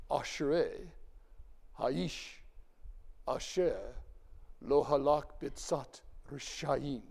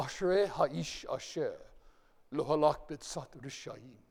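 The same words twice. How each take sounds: First: Slow Hebrew, leaning on each sh in Ashrei, ha'ish, asher; spaced out to bring out the sh; slow deliberate Hebrew with sh emphasized; stressed sh sounds. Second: Slow Hebrew with clear sh sounds; reading Psalm one in Hebrew; Hebrew recitation. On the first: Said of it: "Did you hear the sh four times?". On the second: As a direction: recite the Hebrew line carefully. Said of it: "Notice the sh". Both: Shown as a demonstration.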